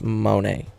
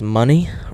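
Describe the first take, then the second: First: The name ends with an 'ay' sound. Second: The name ends with an 'ee' sound. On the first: The speaker calls it wrong. "I said Monet" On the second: The speaker calls it right. "I think it's pronounced like money"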